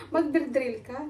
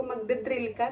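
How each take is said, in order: First: Slow and clear. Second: Said in the usual way. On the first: Shown as a demonstration. To the Swedish neighbor who can't follow, slow clear words. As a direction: spell it out slowly for a foreigner. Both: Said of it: "di rin niya ako maintindihan".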